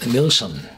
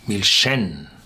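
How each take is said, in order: First: The stress is on the first syllable. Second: The stress is on the last syllable. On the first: The speaker calls it wrong. "you would say uh" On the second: The speaker calls it right. "with a pronunciation on the end"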